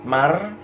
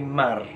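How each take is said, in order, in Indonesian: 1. Bunyi n menyatu dengan r, jadi berakhir mar. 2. Bunyi n menyatu dengan r, jadi berakhir mar.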